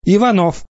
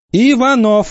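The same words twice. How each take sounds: First: A high call to a pupil. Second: Higher, louder second call. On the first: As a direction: call the boy's name, first time. Teacher calling a child. (высоко, окликая) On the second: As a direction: call him again, sharper and louder. Teacher calls louder. (громче и выше, настойчиво) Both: Acted.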